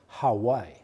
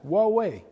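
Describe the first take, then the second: First: It sounds like the island name Hawaii. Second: It sounds like two syllables, wah-way. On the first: The speaker calls it wrong. "Some people call us Hawaii" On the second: The speaker calls it right. "We are pronounced Huawei"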